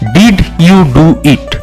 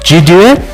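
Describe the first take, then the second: First: Every word is said fully and separately. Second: The words run together with sounds dropped.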